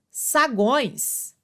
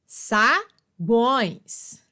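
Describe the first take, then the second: First: Said in the usual way. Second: "sagões" drawn out as sa-gões; divisão silábica. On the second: Shown as a demonstration. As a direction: pause after sa in "sagões", keep gões whole. ("sagões" pausado, em sa-gões) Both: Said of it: "na mesma sílaba".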